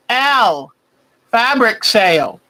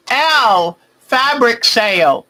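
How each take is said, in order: Both takes have the same delivery.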